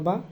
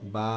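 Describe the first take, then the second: First: The vowel is short and quick. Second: The vowel is drawn out for a second. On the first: "ওইটা তাড়াতাড়ি হবে" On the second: "এক সেকেন্ড টান দিবেন"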